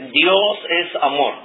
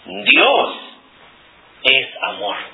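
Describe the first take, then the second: First: No word is given extra stress. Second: The word Dios is stressed. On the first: "no estoy enfatizando en ninguna palabra" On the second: "Estoy enfatizando Dios"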